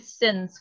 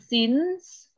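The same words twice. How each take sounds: First: The vowel is a short, lax i. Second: The vowel is a tense, ee-like i. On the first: The speaker calls it right. "tapi since. Kayak orang Jawa bilang titik ya" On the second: The speaker calls it wrong. "Bukan i, bukan since. Bukan since"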